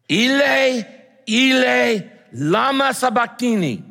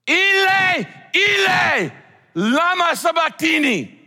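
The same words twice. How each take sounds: First: High, loud anguished cry. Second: Very high, loud anguished scream. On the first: Preacher voicing Jesus crying out from the cross, loud and high. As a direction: cry it out in agony. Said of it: "Jesus cried out in a loud voice". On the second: Preacher voicing Jesus screaming to God from the cross, full anguished scream. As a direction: scream it out in agony. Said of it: "literally means he screamed it". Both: Acted.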